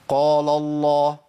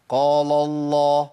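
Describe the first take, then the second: No difference in how they are said.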